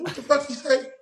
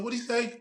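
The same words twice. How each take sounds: First: Much higher, exasperated what-did-he-say; the second time, now you're fuming; outraged disbelief. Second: High, baffled double-take; first confused what-did-he-say; disbelief. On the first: Escalating disbelief after rewind. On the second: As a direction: ask it like you can't believe your ears. Reacting in disbelief to interview. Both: Retold or imitated.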